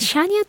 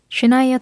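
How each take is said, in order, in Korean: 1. 이름은 'sha'로 시작하고 'nia'로 끝나요. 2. 이름은 'shu'로 시작하고 'naiuh'로 끝나요. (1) "예전에는 샤니아 트웨인이라고 항상 발음했었는데" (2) "슈나이어가 맞는 발음이라고 하더라고요"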